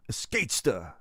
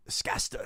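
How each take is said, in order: First: Escatesta tried with a voiced es-KATE-sta; sounding out a name. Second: Escasta breathed with no voice, as es-KAS-ta; whispered retry. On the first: Streamer trying to pronounce a chatter's username, voiced. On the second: Streamer quietly retrying the chatter's username in a whisper. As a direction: try Escasta again in a whisper, dropping the middle syllable. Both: Shown as a demonstration. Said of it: "Hello there, Escatesta".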